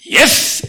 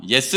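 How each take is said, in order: First: "예스!" in a high, punchy exclamation; forceful, higher-pitched "예스!" as a reading demo; emphatic YES. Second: Said in the usual way. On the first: Shown as a demonstration. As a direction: shout "예스!" with full conviction. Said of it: "이렇게 읽어야 된대요". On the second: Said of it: "이렇게 읽으면 틀리".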